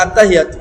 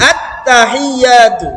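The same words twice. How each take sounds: First: Rushed wrong take. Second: আত্তাহিয়াতু said slowly with the doubled ত held; unhurried recitation; slow correct take. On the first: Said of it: "তাড়াতাড়ি বলে". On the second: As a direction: give আত্তাহিয়াতু time, stretch it out. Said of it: "একটু সময় দিলে পড়াটা সুন্দর হয়". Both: Shown as a demonstration.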